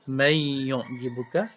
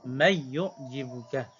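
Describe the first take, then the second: First: The merged n sound carries a held nasal hum. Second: The merged n sound has no nasal hum. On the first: "idgham ma'al gunnah" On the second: "idgham tapi tanpa dengung"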